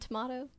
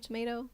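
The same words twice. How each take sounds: First: The word is said in a British accent. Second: The word is said in an American accent. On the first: "And tomato" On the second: "instead of"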